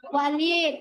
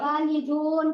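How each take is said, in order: First: The word ends on a bare 'd' sound. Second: The word ends with a final 'un' sound. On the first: "kalau diwakofkan" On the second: "kalau dibaca harokatnya"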